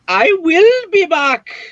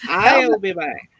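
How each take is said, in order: First: The words I will are said in full. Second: The words I will are contracted to I'll. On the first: It sounds overly proper. The speaker calls it wrong. "Can you imagine a teacher going to say" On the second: It sounds cool and natural. The speaker calls it right. "no, no"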